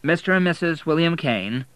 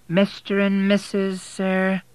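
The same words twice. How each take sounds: First: Firm, pitched-up insistence, stressing and; firmly. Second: Much higher, slow, probing query; drawn-out suspicious question from the desk; suspicious receptionist. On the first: William answering the suspicious receptionist, firm. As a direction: set the record straight firmly. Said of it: "said William firmly". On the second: Receptionist doubting William and Kate are married, slow and high. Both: A narrator's reading.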